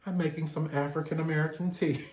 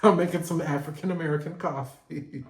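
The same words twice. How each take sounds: First: Fast, proud mock declaration; mock proud announcement. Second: Mock proud line through laughter; mock bragging while cracking up; laughing mock boast. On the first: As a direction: brag about your tea, quick and pleased. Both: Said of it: "I'm gonna be like".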